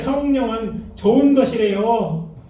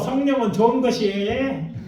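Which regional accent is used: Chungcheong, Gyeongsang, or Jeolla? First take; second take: Chungcheong; Gyeongsang. First: It is spoken in a Chungcheong regional accent. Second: It is spoken in a Gyeongsang regional accent. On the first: "충청도 버전" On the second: "경상도 버전입니다"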